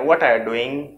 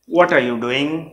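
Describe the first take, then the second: First: It is said fast, with words run together. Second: It is said slowly, every word in full.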